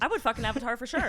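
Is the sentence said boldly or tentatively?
boldly. It is said boldly and with full confidence.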